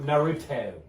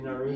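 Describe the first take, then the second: First: The middle consonant is a clear T sound. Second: The middle consonant sounds like a soft D. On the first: The speaker calls it right. "I didn't pronounce the T. Is that better?" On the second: The speaker calls it wrong. "I say it like it's a D"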